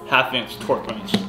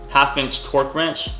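No difference in how they are said.

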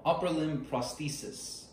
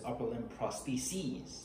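First: "prosthesis" ending in a short -sis; "prosthesis" as singular, short i at the end; singular pronunciation. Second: "prostheses" ending in a long -seez; "prostheses" as plural, final syllable rhyming with seas; plural pronunciation. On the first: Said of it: "So you would say". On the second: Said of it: "the plural form is". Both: Shown as a demonstration.

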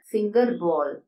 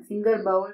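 First: "ബോൾ" in "finger ബോൾ" with a long O; correct pronunciation. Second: "ബൗൾ" in "finger ബൗൾ" rhyming with owl; wrong pronunciation. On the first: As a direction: say "ബോൾ" as bohl. ("ബോൾ" ശരിയായി "ഓ" നീട്ടി) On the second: ("ബൗൾ" തെറ്റായി "ഔ" ശബ്ദത്തിൽ) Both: Shown as a demonstration. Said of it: "എന്നല്ല പറയേണ്ടത്".

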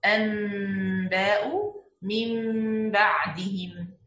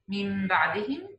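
First: أنباء من بعدهم drawn out, each ن turned into a held nasal م; slow iqlab. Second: من بعدهم with the ن turned into a nasal م before ب; iqlab. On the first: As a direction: stretch أنباء من بعدهم, noon becoming meem. (إقلاب بطيء وواضح في أنباء من بعدهم) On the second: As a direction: turn the noon of من بعدهم into meem. (إقلاب النون ميمًا في من بعدهم) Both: Shown as a demonstration. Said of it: "إقلاب rule here".

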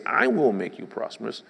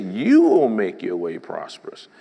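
First: Said in the usual way. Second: You에 힘을 실어 크게; You를 또박또박 강조해서; stress on You. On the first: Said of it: "God didn't say". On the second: Shown as a demonstration. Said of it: "He said".

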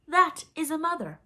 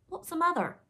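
First: THAT hit high and loud; emphatic answer. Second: High, loud, puzzled pirate voice; ignorant question. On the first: Hook answers Smee's question, loud stress on "That". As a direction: proclaim it with a strong, high "That". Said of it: "in answer to Smee's question". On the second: Ignorant pirate asks his mates, high puzzled voice. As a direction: ask it high and cluelessly. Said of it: "asked the ignorant Smee". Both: A narrator's reading.

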